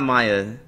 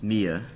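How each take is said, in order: First: The name begins with a 'my' sound. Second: The name begins with a 'me' sound. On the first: The speaker calls it wrong. "It is not Maya" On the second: The speaker calls it right. "It's Mia"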